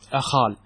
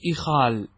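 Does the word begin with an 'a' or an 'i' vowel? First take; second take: a; i. First: The first vowel is an open 'a'. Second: The first vowel is a close 'i'. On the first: "أخال بفتح الهمزة" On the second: "والأكثر إخال بكسرها على خلاف القياس"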